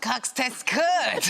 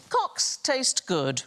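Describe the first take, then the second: First: Cocks taste good, slow and laughing; repeating the phrase. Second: Cocks taste good, said slowly and carefully; slow careful phrase. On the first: Retold or imitated. Panellist repeating the host's phrase, slow and laughing. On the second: Shown as a demonstration. Host reading a foreign phrase slowly to the panel. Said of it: "This next one is".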